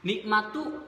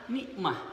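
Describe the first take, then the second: First: The word ends with a full 'tu' syllable. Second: The word ends with a soft 'h' sound. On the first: The word is joined to the following word. "ketika wasol" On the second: The reader stops after this word. "ketika wakofnya adalah"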